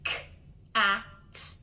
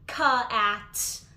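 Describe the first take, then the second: First: No extra vowel follows the first sound. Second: An extra short vowel follows the first sound. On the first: The speaker calls it right. "without that added schwa" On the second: The speaker calls it wrong. "then they would read the word cat"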